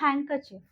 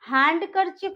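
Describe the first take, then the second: First: The d sound is left out entirely. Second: The d sound is pronounced in the middle. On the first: The speaker calls it right. "यहाँ पे हम डी को pronounce नहीं करेंगे" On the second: The speaker calls it wrong. "It's हैंडकरचिप नहीं होता है"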